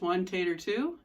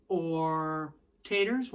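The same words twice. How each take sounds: First: One, tater, two counted out in rhythm with a lift on two; counting the shuffle. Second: Slow taters. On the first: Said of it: "It's the Nashville shuffle pattern". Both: Shown as a demonstration.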